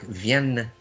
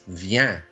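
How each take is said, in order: First: The final n is clearly sounded and stressed. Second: The final n is dropped, ending on the vowel. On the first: The speaker calls it wrong. "you stress out the last part. You say like vienne" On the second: The speaker calls it right. "no stress on the N. You can drop that last N"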